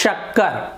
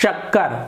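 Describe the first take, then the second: First: The word begins with a palatal 'sh' sound. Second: The same.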